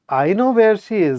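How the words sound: It sounds quizzical and perplexed. It is unclear whether this should be known. "Now I'm quizzical"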